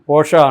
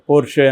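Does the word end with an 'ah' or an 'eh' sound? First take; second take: ah; eh. First: The word ends with an 'ah' vowel. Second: The word ends with an 'eh' vowel. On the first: This is the German pronunciation. "కానీ పోర్షా అనేది German pronunciation" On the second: This is how people commonly say it. "మామూలుగా పోర్ష్ పోర్షే అని కూడా పిలుస్తుంటారు"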